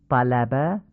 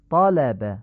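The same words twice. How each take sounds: First: طلب with Persian short a; Persian fatha. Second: طالب with open heavy a; Arabic fatha. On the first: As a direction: say طلب with a light front a. (طلب با فتحهٔ فارسی) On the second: (طالب با فتحهٔ عربی درشت) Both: Shown as a demonstration. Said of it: "لهجهٔ عربی نیست".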